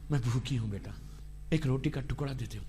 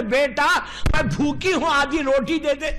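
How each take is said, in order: First: Much softer, lower, hushed plea of a starving mother; hungry mother pleading. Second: Said in the usual way. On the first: Retold or imitated. Preacher voicing a hungry mother begging her son, soft pleading. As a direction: beg for bread like a faint old mother.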